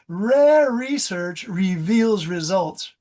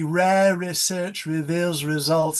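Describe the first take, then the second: First: It is said with hard American R sounds. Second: It is said with soft British R sounds. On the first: "I'm teaching you the American hard R" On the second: "A British uh, would be ... They have a much softer R"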